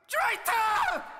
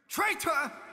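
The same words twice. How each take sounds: First: It is screamed out loudly. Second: It is said in a more angry way. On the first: The speaker is enraged by the accusation. "the last line, I'm going to scream it out" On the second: The speaker resents the accusation. "the second one is kind of like you're you're kind of more angry"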